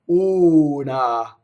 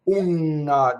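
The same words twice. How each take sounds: First: The N sound is short, single. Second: The N sound is held long, doubled. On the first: The speaker calls it right. "single N" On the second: The speaker calls it wrong. "double N"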